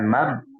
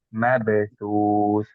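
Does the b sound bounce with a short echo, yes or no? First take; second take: no; yes. First: The b is closed off without any bounce. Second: The b is released with a short bouncing echo. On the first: The speaker calls it wrong. "Bukan mab" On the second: The speaker calls it right. "tapi mabesus"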